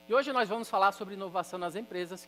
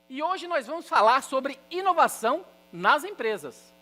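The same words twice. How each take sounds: First: It is said flatly, in a monotone. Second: It is said louder, with lively emotion.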